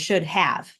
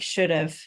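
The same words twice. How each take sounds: First: Said carefully, with 'have' pronounced in full. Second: Said fast, with 'have' reduced to 'of'. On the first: "you're really saying" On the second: "when you say it fast, it sounds like"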